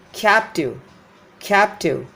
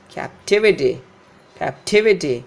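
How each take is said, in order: First: Captive as CAP-tiv; first-syllable stress. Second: Captivity as cap-TIV-ity; stress before suffix. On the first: Teacher showing the root word, captive stressed on CAP. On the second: Teacher showing suffix shift, captivity stressed on TIV. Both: Shown as a demonstration. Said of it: "This tive is stressed here".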